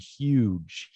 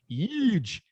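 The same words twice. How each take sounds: First: It is said in the speaker's own plain voice. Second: It is said in an exaggerated, put-on voice. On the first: "we have that same ooh sound" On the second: "How does Trump say it? Trump says"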